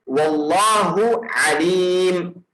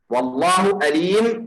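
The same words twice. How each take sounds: First: The word begins with a deep throat consonant. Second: The word begins with a plain vowel. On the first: God is all knowing. The speaker calls it right. "This is the word" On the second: The meaning changes entirely. The speaker calls it wrong. "if you change from a to hamza to alif"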